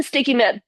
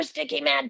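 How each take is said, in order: First: Said in the usual way. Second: Put-on sticky man with a child's n in place of the t; grandson's word. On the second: Shown as a demonstration. Yoga teacher copies her grandson saying sticky man. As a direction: say sticky man the way a toddler would. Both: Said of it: "I'm talking like my grandson".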